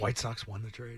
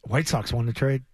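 First: Quiet repeat. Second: Slow, emphatic hot take; Felger take impression. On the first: Retold or imitated. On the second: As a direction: deliver it like a bold radio hot take. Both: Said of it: "I'm doing my Felger take".

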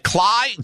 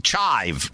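First: Clive? with a CL start, pitched high. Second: Chive with a CH start, pitched low. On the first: Host querying the guest's name, Clive said high with CL. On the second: Host correcting himself on the guest's name, low Chive with CH. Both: Real, not acted.

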